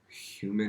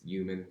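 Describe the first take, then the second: First: The opening h sound is pronounced. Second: The opening h sound is dropped. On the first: The speaker calls it right. "not human" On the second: The speaker calls it wrong. "I also don't say H's"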